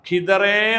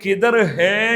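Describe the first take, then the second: First: The two words merge into one word. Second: It is said as two separate words. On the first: The speaker calls it right. "കിതർ ഹേ എന്നതിൻ്റെ ഒരു സംസാര ശൈലിയാണ്" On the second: The speaker calls it wrong. "അവിടെ കിതർ ഹേ എന്ന് പറയണ്ട"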